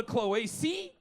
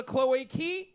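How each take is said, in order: First: Cloacae ending in "see", rising; soft S sound in cloacae, tune left hanging. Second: Cloacae ending in "key", rising; hard K sound in cloacae, tune left hanging. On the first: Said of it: "Some call it a". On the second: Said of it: "some call it a". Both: Shown as a demonstration.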